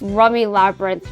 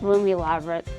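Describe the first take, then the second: First: The first vowel sounds like the vowel in rum. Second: The first vowel sounds like the vowel in room. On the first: The speaker calls it right. "it's rummy. Like rum" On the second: The speaker calls it wrong. "not room, not Roomy Labyrinth"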